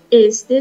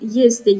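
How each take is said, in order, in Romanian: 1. Cuvântul începe cu vocala simplă e. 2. Cuvântul începe cu semiconsoana i înainte de e. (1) "Este o pronunțare greșită" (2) "Noi spunem el, este"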